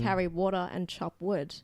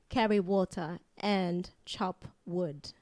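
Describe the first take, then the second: First: It is said in the speaker's ordinary accent. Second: It is said in a put-on Chinese accent.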